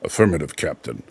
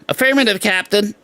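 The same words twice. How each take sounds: First: The voice is deep and resonant. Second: The voice is light, not deep. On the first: This is how the original character sounds. The speaker calls it right. "Mister Spock has a very deep, resonant voice" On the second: This is how the new actor sounds. The speaker calls it wrong. "he doesn't go"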